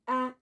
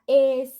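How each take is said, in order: First: It is said as the vowel in apple. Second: It is said as the letter's name. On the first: "sound A" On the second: "Letter A"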